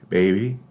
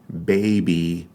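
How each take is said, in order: First: The second B is soft, lips not fully closed. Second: The second B is made with fully closed lips. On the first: "like the second B in baby when you're pronouncing it very casually" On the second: "Not baby"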